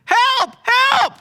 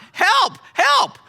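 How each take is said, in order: First: Full panicked yell, very high and loud; a high, loud "Help, help!" screamed in panic; shout for help. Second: "Help, help" held back, slow and a bit louder; picture the yell without letting it out; a slowed "Help, help" still under control; imagined yell. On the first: Acted. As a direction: scream "Help!" with everything you've got. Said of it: "He said". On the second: Retold or imitated. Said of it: "If I yell out".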